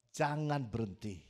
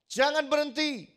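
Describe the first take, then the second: First: Said in the usual way. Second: High, loud "jangan berhenti" with a falling close; full-force sermon command; preached shout. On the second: Acted.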